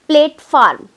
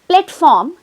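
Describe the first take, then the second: First: The first syllable sounds like 'plate'. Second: The first syllable sounds like 'plat'. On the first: The speaker calls it wrong. "I said plate farm" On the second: The speaker calls it right. "instead of saying platform"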